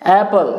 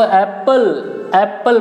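First: एप्पल with open "a" and a single p, "AE-pul"; correct pronunciation. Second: एप्पल said the common way, with short "e" as in "eppal"; wrong pronunciation. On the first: Teacher modelling the right word for learners, correct pronunciation "AE-pul". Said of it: "सही उच्चारण एप्पल होता है". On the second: Teacher showing learners how people misread एप्पल, wrong pronunciation "eppal". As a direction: say एप्पल as "EP-pal", short first vowel. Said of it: "ये आपका wrong pronunciation है". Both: Shown as a demonstration.

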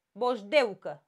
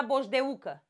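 First: "Boșdeucă" with stressed DEU as one syllable; correct diphthong pronunciation. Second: "boșdeucă" with a separate stressed U; hiatus pronunciation. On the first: Teacher gives the right form, EU kept in one syllable. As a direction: glide E into U in "Boșdeucă". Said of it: "Păi hai să-l pronunțăm". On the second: Teacher shows how it would otherwise sound, U in its own syllable. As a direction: say "boșdeucă" as boș-de-U-că. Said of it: "l-aș pronunța". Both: Shown as a demonstration.

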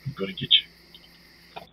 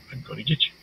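First: Slow, breathy threat whisper; menacing whisper. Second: Said in the usual way. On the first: Pretend. Player stalking the game monster, slow menacing whisper. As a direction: hiss it slowly like a stalker.

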